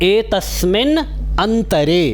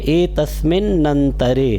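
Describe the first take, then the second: First: The two words are said separately, single n. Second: The two words run together with a doubled n.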